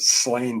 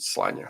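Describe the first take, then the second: First: The name ends in an 'n' sound. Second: The name ends in a vowel sound. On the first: "A lot of people pronounce it Slain because that's how it's phonetically spelled" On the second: "I think it's probably pronounced it Slania"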